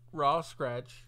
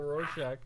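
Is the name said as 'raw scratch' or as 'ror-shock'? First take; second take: raw scratch; ror-shock. First: The name sounds like the words raw scratch. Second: The name sounds like ror-shock, its usual form. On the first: The speaker calls it wrong. "What about when I said raw scratch?" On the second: The speaker calls it right. "Instead of Rorschach"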